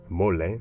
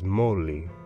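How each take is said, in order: First: It is pronounced with Spanish sounds. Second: It is pronounced with Nahuatl sounds. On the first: This is the form the Spanish borrowed. "The Spanish borrowed the word mole, pronounced it" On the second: This is the original Aztec word. "The Aztec word is"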